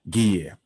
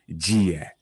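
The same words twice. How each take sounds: First: The g at the start is hard. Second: The g at the start is soft. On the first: The speaker calls it right. "It's a hard g" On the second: The speaker calls it wrong. "not gear"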